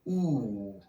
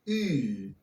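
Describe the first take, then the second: First: The vowel is a back oo sound. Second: The vowel is a fronted oo sound. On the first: "with a classic pronunciation" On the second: "use the modern pronunciation"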